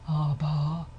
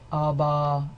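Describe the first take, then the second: First: The voice is breathy, with audible airflow. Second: The voice is plain, neither breathy nor creaky. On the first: "it's breathy, it will sound like this" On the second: "then I've got neither"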